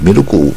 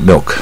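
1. 在最后的k后面加了一个元音。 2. 结尾是k，有一个短元音和l。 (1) "更不要像日本念milku milku 啊" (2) "短音然后带耳的音milk"

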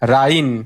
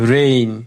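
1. স্বরধ্বনিটি 'ah' ধ্বনি দিয়ে শুরু হয়। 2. স্বরধ্বনিটি 'eh' ধ্বনি দিয়ে শুরু হয়। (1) "যদি আপনি ছোটবেলা পড়ছেন এ মানে আ পড়ছেন, তাহলে আ ইন হয়" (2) "তাহলে রাইন না রেইন"

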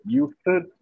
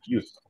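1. El final se dice como una sílaba extra con vocal. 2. La palabra termina en un sonido T corto. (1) "en vez de used" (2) "tratar de decir used"

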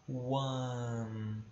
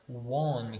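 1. A vogal soa quase como um 'a'. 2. A vogal soa como um 'o'. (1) "É quase como se fosse um A" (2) "tendem a pronunciar one, como se fosse um O"

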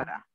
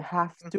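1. Las palabras se unen en una sola palabra reducida. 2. Las dos palabras se dicen completas. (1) "reducciones que hacen" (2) "en vez de have to"

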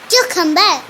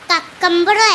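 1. ആദ്യത്തെ syllable kyoo പോലെയാണ് കേൾക്കുന്നത്. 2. ആദ്യത്തെ സിലബിൾ kuck പോലെയാണ് കേൾക്കുന്നത്.

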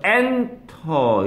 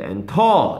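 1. 강세는 첫 음절에 있어요. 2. 강세는 두 번째 음절에 있어요. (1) "얘도 강세가 여기 와서 엔터 이러는 거죠" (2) "이게 아니란 말이에요"

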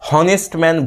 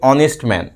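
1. Honest শব্দটি একটি স্পষ্ট শোনা যায় এমন h ধ্বনি দিয়ে শুরু হয়। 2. Honest শব্দটি একটি স্বরধ্বনি দিয়ে শুরু হয়, কোনো h ধ্বনি নেই। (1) "অনেকে হনেস্ট ম্যান ভুল উচ্চারণ করে।" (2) "এইচটাকে বাদ দিয়ে আমরা উচ্চারণ করি"

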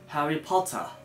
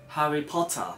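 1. T はしっかり発音される；R は弱い。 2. T はしっかり発音される；R は弱い。

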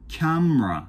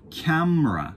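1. 中の母音は消える。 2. 中の母音は消える。

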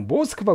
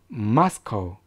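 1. 모든 음절에 강세가 고르게 들어가요. 강하게 들어가는 곳은 없어요. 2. 첫 음절에 강세가 강하게 들어가요. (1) "모스크바 그러면 진짜 못 알아들어요" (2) "마의 강세가 들어가셔서 마스코라고 발음하셔야 됩니다"

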